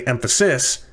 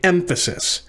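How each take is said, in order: First: The stress falls on a later syllable. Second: The stress falls on the first syllable. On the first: The speaker calls it wrong. "we don't typically say emphasis" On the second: The speaker calls it right. "We say emphasis. So the stress is on the first of the three syllables"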